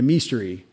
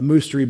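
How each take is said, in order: First: The first vowel sounds like ee. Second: The first vowel sounds like oo. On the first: This is the modern pronunciation. "So even U is E. A moostery became a meestery" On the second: This is the older pronunciation. "So even U is E. A moostery became a meestery"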